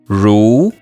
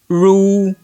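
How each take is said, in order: First: The pitch rises from middle to high. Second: The pitch stays high and level.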